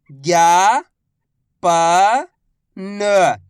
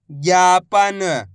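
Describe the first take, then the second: First: Very slow, each syllable drawn out. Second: Said in the usual way. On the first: Shown as a demonstration. Teacher sounding out a word for pupils, slow syllables. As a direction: spell the word out slowly for a child. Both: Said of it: "मैं किस तरीके से".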